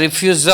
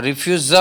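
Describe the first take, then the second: No difference in how they are said.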